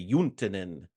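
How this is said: The name is said with a Finnish pronunciation. "our Finnish friends say"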